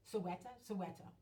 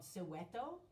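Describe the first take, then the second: First: Soweto with a slip into a Spanish accent. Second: Said in the usual way. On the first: Real, not acted. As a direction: say "Soweto" Spanish-style, first asking, then settling. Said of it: "gave it a Spanish accent".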